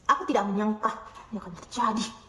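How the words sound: It is said in a cynical tone. "Katakan dengan nada sinis"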